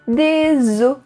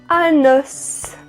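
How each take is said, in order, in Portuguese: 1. O som do S final é silencioso. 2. O som do S final é pronunciado. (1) "a gente não diz a letra S" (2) "a gente vai dizer a letra S"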